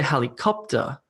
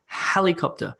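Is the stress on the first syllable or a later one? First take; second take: later; first. First: The stress is on a later syllable. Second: The stress is on the first syllable. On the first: The speaker calls it wrong. "We don't say helicopter" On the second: The speaker calls it right. "the word stress, is on the beginning of the word, on that first syllable"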